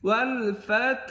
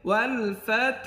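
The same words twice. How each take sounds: No difference in how they are said.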